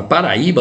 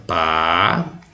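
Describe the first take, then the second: First: Said in the usual way. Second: "Paraíba" drawn out as pa, ra, í, ba; syllable by syllable. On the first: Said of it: "vou separar aqui certinho". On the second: Shown as a demonstration. Teacher splits the word to find the stress, syllable by syllable. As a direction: say "Paraíba" in four slow, lower, separated syllables. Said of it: "você separa a sílaba assim".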